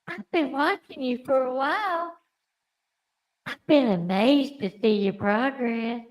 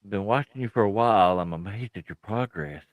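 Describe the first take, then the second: First: It is said in Yonko's put-on character voice. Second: It is said in the speaker's normal voice.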